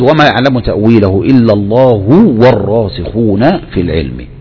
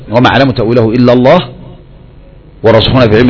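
First: There is no pause after the word Allah. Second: There is a pause after the word Allah. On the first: Those firm in knowledge also know its interpretation. "الوصل" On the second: Only God knows its true interpretation. "الوقف"

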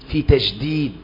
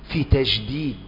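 The two takes are said the same way.

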